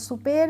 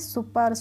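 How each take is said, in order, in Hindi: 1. दूसरा अक्षर लंबा खिंचा हुआ 'pair' है। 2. दूसरा अक्षर छोटा 'per' है। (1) "सुपेर नहीं पढ़ते हैं" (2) "इसे हम पढ़ेंगे सुपर"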